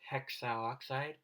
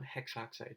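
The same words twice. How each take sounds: First: An extra vowel sounds between hex and oxide. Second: No extra vowel sounds between hex and oxide. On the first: The speaker calls it wrong. "instead of saying hexoxide" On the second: The speaker calls it right. "we want hexoxide"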